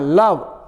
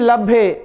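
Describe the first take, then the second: First: The word ends on the v sound. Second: The word ends with an added ee vowel. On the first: The speaker calls it right. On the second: The speaker calls it wrong. "लभ्य लब्बी नहीं"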